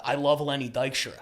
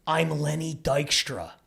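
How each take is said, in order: First: Mumbled. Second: Slow, drawn-out "I'm Lenny Dykstra"; emphatic correction. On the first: Passenger shaking the driver's hand from behind, mumbling. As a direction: lightly mumble it, running the words together. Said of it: "he's mumbling, so I think he says". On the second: Passenger correcting the driver's mishearing, slow and emphatic "I'm Lenny Dykstra". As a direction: stretch "I'm Lenny Dykstra" out slowly and deliberately. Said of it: "No, no, no. And he squeezes my hand". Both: Retold or imitated.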